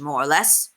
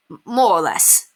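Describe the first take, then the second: First: Said in the usual way. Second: Stammering the M, sheepish and grinning. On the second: A narrator's reading. Simon grinning sheepishly as he says goodbye to Penelope. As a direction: stumble bashfully over the first word. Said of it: "Simon grinned sheepishly".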